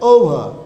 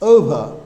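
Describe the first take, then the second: Both takes have the same delivery.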